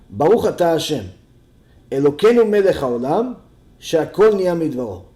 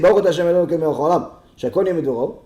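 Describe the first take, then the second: First: It is said with two short pauses. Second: It is said quickly in one run.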